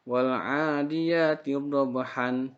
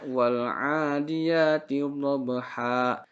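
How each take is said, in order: First: The phrase ends with an n sound. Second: The phrase ends on a vowel, no n. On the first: The speaker calls it wrong. "ini ini salah" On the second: The speaker calls it right. "Jadi harusnya"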